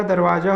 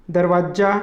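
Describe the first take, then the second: First: दरवाजा with a single j, "darvaja"; correct दरवाजा. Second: दरवाजा with a doubled j, "darvajja"; wrong दरवाजा. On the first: Teacher giving the correct form, दरवाजा as "darvaja". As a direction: keep the j short in दरवाजा. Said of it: "होगा". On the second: Teacher rejecting the misspelling, दरवाजा as "darvajja". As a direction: hold the j in दरवाजा. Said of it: "नहीं होगा". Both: Shown as a demonstration.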